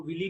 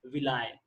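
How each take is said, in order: First: विली said with an "ee" ending, vi-lee; alternative pronunciation. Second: विलाय said with an "eye" ending, vi-lai; actual pronunciation. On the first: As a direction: say विली to rhyme with "Billy". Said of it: "कुछ लोग इसको विली भी बोलते हैं". (विली, आख़िर में "ई" की ध्वनि के साथ) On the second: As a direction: make the end of विलाय rhyme with "eye". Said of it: "मगर इसका एक्चुअल प्रोनाउंसिएशन क्या है". (विलाय, आख़िर में "आय" की ध्वनि के साथ) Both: Shown as a demonstration.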